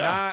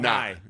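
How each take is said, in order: First: The syllable has an 'ah' vowel. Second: The syllable has an 'eye' vowel. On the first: The speaker calls it right. "You got to get the nah" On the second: The speaker calls it wrong. "Nah and not"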